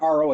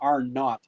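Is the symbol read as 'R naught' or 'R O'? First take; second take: R O; R naught. First: The zero is read as the letter O. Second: The zero is read as the word naught. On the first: The speaker calls it wrong. "it's not R O" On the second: The speaker calls it right. "I think is the right way to pronounce it"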